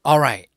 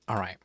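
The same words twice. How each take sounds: First: Much louder, pumped-up call to chat; loud hype. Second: Said in the usual way. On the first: Real, not acted. Streamer fires up viewers before the stream with a loud hype call. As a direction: shout it out to kick things off.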